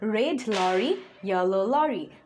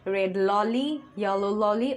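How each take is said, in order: First: Both red and lorry keep a clear r sound. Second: Lorry is said with an l instead of r. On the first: The speaker calls it right. "প্রোনাউন্সিয়েশনটা যেন ঠিক হয়" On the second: The speaker calls it wrong. "এটা অনেক সময় হয়ে যায়"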